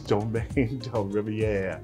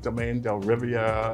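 First: Riviere is pronounced in a French way. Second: Riviere is pronounced in an English way. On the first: The speaker calls it right. "Riviere is French name" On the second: The speaker calls it wrong. "I had a hard time pronouncing it"

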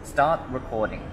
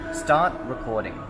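First: The command is said quietly and less clearly. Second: The command is said loudly and more clearly. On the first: The camera does not pick up the command. The speaker calls it wrong. "it didn't get it the first time" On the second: The camera picks up the command and starts recording. The speaker calls it right. "The second time, when I was louder and clearer"

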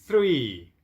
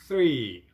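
The two takes are said the same way.

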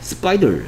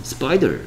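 The two takes are said the same way.

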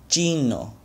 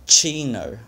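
First: The first consonant has no puff of air. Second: The first consonant has a puff of air. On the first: The speaker calls it right. "the true Spanish pronunciation" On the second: The speaker calls it wrong. "my gringo pronunciation"

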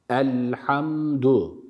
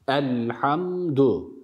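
No difference in how they are said.

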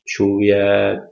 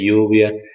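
First: The first sound is a 'sh' sound. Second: The first sound is a 'y' sound. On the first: This is how the speaker's own region says it. "el sonido SH suena sh, sh, lluvia. Lo decimos lluvia" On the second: This is how people in other provinces say it. "hay en otras provincias que dicen lluvia, según el regionalismo"

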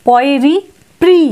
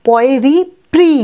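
No difference in how they are said.

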